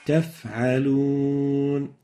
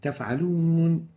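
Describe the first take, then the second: First: The f sound is held with clear breath. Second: The f sound is cut short with little breath. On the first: The speaker calls it right. "the right way of pronouncing it is" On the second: The speaker calls it wrong. "it becomes like if it is really amputated"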